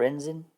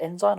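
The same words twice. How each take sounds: First: "ensign" as EN-zin, short i; short-i ending. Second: "ensign" ending like "sign", EN-zine; long-i ending. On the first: Player testing the other pronunciation, "ensign" said EN-zin. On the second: Player unsure of the rank's pronunciation, "ensign" said EN-zine. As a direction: say "ensign" with a long i in the second syllable. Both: Shown as a demonstration. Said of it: "Is it ensign or ensign?".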